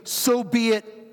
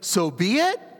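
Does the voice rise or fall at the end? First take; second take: fall; rise. First: The voice falls at the end, like a statement. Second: The voice rises at the end, like a question.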